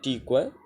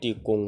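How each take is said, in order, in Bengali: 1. দ্বিতীয় সিলেবলটি একটি খোলা স্বরধ্বনিতে শেষ হয়। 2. দ্বিতীয় সিলেবলটি একটি অনুনাসিক ব্যঞ্জনে শেষ হয়। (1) "ইয়াখাইল হইলে" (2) "মাল হইলে"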